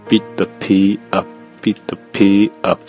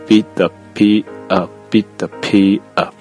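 The two takes are said the same way.

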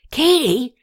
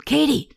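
First: Calling her name again, a bit louder; a little louder. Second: Urgent call from the back of the room; loud whisper. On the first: Rene calls Katie again across the temple room, a little louder. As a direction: raise the call just a notch. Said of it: "repeated her name a little louder". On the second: Rene calls Katie from the back of the temple, loud whisper. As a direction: call her name, hushed but insistent. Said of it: "he said in a loud whisper". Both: Acted.

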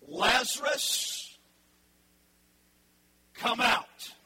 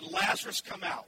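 First: Slow, loud call to the dead, drawn out; loud drawn-out summons to a dead man; commanding call. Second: Shouted command. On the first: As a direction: call him out of the tomb. Jesus calling Lazarus from tomb. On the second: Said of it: "Then Jesus shouted". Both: Acted.

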